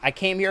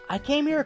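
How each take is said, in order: First: The voice sounds annoyed and blunt. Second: The voice sounds timid and hesitant. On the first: This is how the speaker feels now, not how it was said. "I didn't say it in this tone" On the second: This is how it was actually said at the counter. "I was like, hi, uh, yeah, um"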